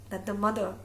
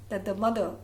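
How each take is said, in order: Both takes have the same delivery.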